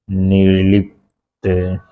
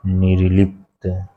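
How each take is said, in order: First: निर्लिप्त said slowly, each sound drawn out; slow careful spelling. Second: Said in the usual way. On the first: Shown as a demonstration. (धीरे-धीरे निर्लिप्त बोलना)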